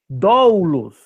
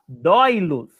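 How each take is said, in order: First: The first vowel glides from o to u. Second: The first vowel glides from o to i. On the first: "ao invés de falar doulos" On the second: "ou ao invés de falar doilos"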